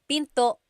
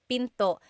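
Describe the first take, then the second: The two takes are said the same way.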